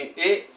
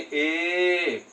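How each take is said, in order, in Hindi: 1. स्वर छोटा है और अचानक झटके से काट दिया जाता है। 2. स्वर को खींचकर देर तक लंबा रखा जाता है। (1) "एक झटके के साथ" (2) "उनको बोला जाता है एक थोड़ा दीर्घ रूप में"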